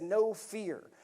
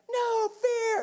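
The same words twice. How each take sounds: First: Said in the usual way. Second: "No fear" yelled much higher and louder; retold yell. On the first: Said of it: "and it said". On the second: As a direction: yell "No fear" like the crew chief over gunfire. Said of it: "that's what Ned's yelling".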